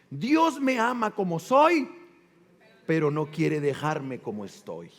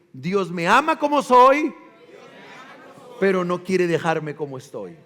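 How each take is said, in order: First: Said in the usual way. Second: Louder, proclaimed to the church; proclaimed motto. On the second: Shown as a demonstration. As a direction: call the motto out for all to repeat. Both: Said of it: "Díganlo".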